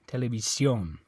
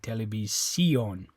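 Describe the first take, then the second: First: The stress is on the last syllable. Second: The stress is on the second-last syllable. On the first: The speaker calls it right. "They want the O to be stressed" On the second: The speaker calls it wrong. "The way you pronounce that would be televisión"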